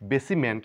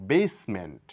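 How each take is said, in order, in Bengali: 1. s আর ment এর মাঝে একটি স্বরধ্বনি শোনা যায়। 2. s আর ment এর মাঝে কোনো স্বরধ্বনি শোনা যায় না। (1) "বেসিমেন্ট নয়" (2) "বলবো বেসমেন্ট"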